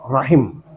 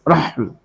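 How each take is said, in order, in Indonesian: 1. Kata itu punya vokal a lalu vokal i. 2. Kata itu punya vokal a dan tidak ada vokal kedua. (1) "Roknya fathah, ro. Al-lughatil fusha" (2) "Bisa dibaca khafif dengan sukun haknya"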